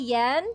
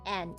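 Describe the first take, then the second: First: The word begins with a Y sound. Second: The word begins with a vowel, no Y. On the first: This is the form used by foreigners. "In English, we say yen" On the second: This is the native Japanese reading. "it doesn't have the Y sound"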